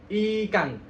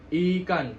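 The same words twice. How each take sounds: First: "Ikan" with a clear I, teeth touching; I jelas. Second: "ikan" with a slack I, drifting toward e; I tidak jelas. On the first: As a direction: press the I in "Ikan". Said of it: "giginya nggak bersentuhan". ("Ikan" dengan I jelas, gigi bersentuhan) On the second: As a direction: say "ikan" with teeth apart. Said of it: "I-nya itu nggak jelas". ("ikan", gigi tidak bersentuhan) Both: Shown as a demonstration.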